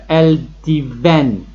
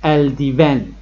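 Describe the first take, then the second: First: الدیون drawn out slowly, each vowel of el-di-ven sounded clearly; vowel shown slowly. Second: الدیون said at normal speed, smoothly; quick normal pronunciation. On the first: Teacher slowly showing the class the vowel in الدیون. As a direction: spell out الدیون slowly so the vowel between the letters is heard. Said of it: "بین ا و ا". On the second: Teacher repeating الدیون for the class at normal pace. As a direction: say الدیون once more normally, right after the slow version. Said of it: "اینم ا تلفظ نمیشه". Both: Shown as a demonstration.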